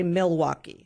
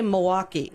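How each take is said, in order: First: "Milwaukee" fully spelled out as "mil-WAU-kee"; every syllable of "Milwaukee" clear; careful Milwaukee. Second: "Milwaukee" said as "mo-WAH-kee", dropping the l; "Milwaukee" clipped to "mwaukee"; Wisconsin Milwaukee. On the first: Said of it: "We don't say Milwaukee". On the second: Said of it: "We say Milwaukee". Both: Shown as a demonstration.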